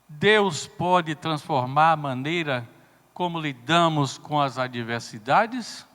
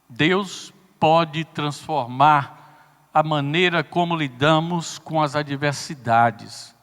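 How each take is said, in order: First: It is said as a question, rising. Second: It is said as a statement, falling.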